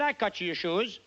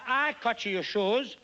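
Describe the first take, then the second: First: It is said at normal speed. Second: It is said more slowly.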